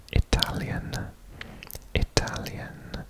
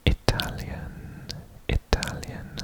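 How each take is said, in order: Both takes have the same delivery.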